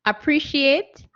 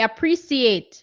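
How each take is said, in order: First: Appreciate with a sh sound, uh-pree-shee-ate; careful appreciate with sh; correct pronunciation. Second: Appreciate with an s sound, uh-pree-see-ate; mispronounced appreciate with s; common mispronunciation. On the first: Shown as a demonstration. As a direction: say appreciate with sh, slowly, checking it. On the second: Retold or imitated. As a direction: say appreciate with s instead of sh. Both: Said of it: "some people say appreciate".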